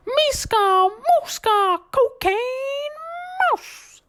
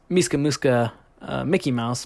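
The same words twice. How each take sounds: First: High squeaky cartoon shout; Mickey Mouse scream. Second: Said in the usual way. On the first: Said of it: "scream off the top of his lungs". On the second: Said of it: "what he's used to saying".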